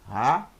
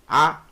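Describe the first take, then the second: First: Each syllable starts with a soft breathy H. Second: Each syllable starts directly with the vowel. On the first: The speaker calls it right. "Bem fraco, suave" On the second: The speaker calls it wrong. "Também não pode ser A"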